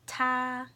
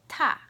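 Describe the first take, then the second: First: It is said with the first tone. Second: It is said with the fourth tone.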